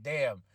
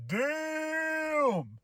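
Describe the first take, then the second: First: Low damn. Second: Long, high, drawn-out impressed damn. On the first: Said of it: "I was like". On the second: Vlogger reacting in awe to Cena's insult. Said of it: "And I was like". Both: Retold or imitated.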